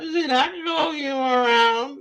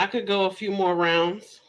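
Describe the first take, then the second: First: Laughing. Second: Said in the usual way. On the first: Real, not acted. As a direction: cackle through the brag.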